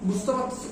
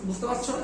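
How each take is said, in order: No difference in how they are said.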